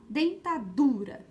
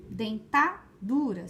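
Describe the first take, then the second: First: "dentadura" with the DU drawn out and punched; stress on DU. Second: "Dentadura" slowly, wrongly stressed as denTÁ-dura; misplaced stress on TA. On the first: Teacher testing a word for pupils, "dentadura" stressed on DU. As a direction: lean hard on DU in "dentadura". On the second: Teacher testing a wrong stress, "Dentadura" said denTÁ-dura. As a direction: punch the TA in "Dentadura", then let DURA drop. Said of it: "será?". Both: Shown as a demonstration.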